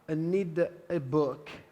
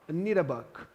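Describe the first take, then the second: First: The article is a full 'ay', said slowly. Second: The article is a short, weak 'uh'. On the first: "quando a pessoa está falando mais pausadamente" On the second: "normalmente você vai ouvir só um a"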